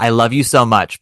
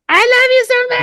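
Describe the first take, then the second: First: It is said in a plain speaking voice. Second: It is said as a high, piercing shriek.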